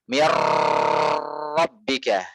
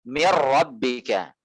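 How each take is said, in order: First: The r has a long, exaggerated trill. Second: The r has a light, controlled trill. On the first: The speaker calls it wrong. "Contoh yang berlebihan" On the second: The speaker calls it right. "maka sertakan sifat takrir pada ra"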